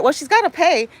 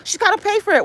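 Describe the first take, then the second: First: Said in the usual way. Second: High, mocking mimic of critics; mocking gossip. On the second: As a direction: sneer at the people gossiping. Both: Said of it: "acting all funny".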